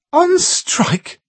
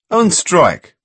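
First: Incredulous. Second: Firm confirmation. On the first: Carol repeats in disbelief. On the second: Paul confirms firmly. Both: A narrator's reading.

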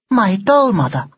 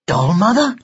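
First: "My doll mother" high with a falling end; firm statement. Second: "Doll mother" high with a rising end; puzzled echo. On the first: Doll answering Ned's question, stating "My doll mother" with a fall. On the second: Ned repeats the doll's words, asking "Doll mother?" with a rise. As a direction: lift "mother" into a question. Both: Acted.

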